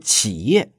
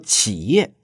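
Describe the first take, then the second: First: It is pronounced the mainland Mandarin way. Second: It is pronounced the mainland Mandarin way.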